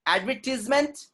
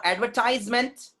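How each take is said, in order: First: Advertisement as "ad-VER-tis-ment"; short i in Advertisement, pitched high; British pronunciation. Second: Advertisement as "adver-TIZE-ment"; long eye vowel in advertisement; American pronunciation. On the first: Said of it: "is British sound". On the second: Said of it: "is American sound". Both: Shown as a demonstration.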